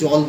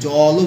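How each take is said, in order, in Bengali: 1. শব্দটি ব্যঞ্জনধ্বনি দিয়ে শেষ হয়। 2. শব্দটি শেষে যোগ করা একটি স্বরধ্বনি দিয়ে শেষ হয়। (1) "আমরা কিন্তু জল বলি" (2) "জলও বলি না"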